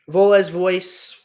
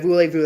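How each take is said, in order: First: The name is read out as it is spelled. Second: The name is said with French pronunciation. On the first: The speaker calls it wrong. "I was just going by how it was pronounced. How it looks" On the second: The speaker calls it right. "that's how you say the album"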